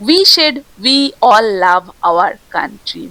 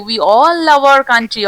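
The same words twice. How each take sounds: First: Slow read with we stressed; We said we all love our country, leaning on we; quoting the direct speech. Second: Slow, all stressed; We all love our country, leaning on all. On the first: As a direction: set out the direct speech with weight on we. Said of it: "we said বলে দিয়েছে এখানে". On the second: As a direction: pick out the quoted words slowly, hitting all. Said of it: "কিন্তু এখানে কি দিয়েছে?". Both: Shown as a demonstration.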